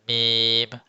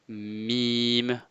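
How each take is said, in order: First: It is said with the nose pinched shut. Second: It is said normally, with air through the nose.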